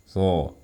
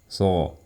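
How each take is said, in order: The two takes are said the same way.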